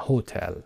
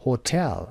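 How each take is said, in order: First: HO-tel, first syllable of هتل stressed; wrong-syllable stress. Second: Ho-TEL, second syllable of هتل stressed; light ho, strong tel in هتل. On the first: Teacher shows what not to say, HO stressed in هتل. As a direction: put the weight on ho in هتل. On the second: Teacher gives correct hotel stress, TEL stressed in هتل. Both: Shown as a demonstration. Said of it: "و نه هتل".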